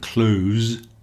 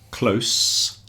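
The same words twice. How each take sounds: First: The word ends with a buzzing z sound. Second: The word ends with a hissing s sound. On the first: It means shut. "meaning shut, with a z" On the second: It means near. "meaning near, with a s"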